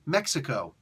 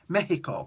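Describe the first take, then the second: First: It is said with an English pronunciation. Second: It is said with a Spanish pronunciation. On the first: "I don't ever want to hear you say Mexico" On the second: "You have to pronounce it Mexico"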